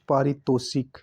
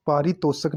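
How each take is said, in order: First: पारितोषिक ending "shik"; correct pronunciation. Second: पारितोषक ending "shak"; wrong pronunciation. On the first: Teacher correcting the word, पारितोषिक with shik. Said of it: "छोटी ई की मात्रा भी आएगी". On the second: Teacher showing the error, पारितोषक with shak. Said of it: "पारितोषक नहीं". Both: Shown as a demonstration.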